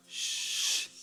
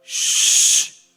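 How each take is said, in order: First: Quiet hissed shh; soft shush. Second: Long loud hissed shh; loud shush. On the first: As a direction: shush them gently, barely heard. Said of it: "Otra vez". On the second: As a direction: shush the whole room loudly. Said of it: "Así conmigo". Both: Shown as a demonstration.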